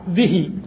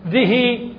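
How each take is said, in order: First: The final i vowel is clipped short. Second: The final i vowel is lengthened fully. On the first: "بكسر باختلاس" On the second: "تشبع الكسرة"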